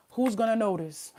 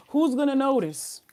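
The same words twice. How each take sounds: First: Said in the usual way. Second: Who's punched higher and louder, falling at the end; emphatic repeat. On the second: Real, not acted. Reader repeats the question to viewers, emphatic and louder. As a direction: hit Who's hard the second time.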